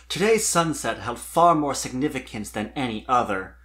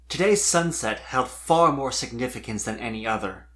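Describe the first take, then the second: No difference in how they are said.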